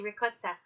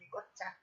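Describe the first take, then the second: First: The middle consonant is a hard K sound. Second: The middle consonant sounds like a G.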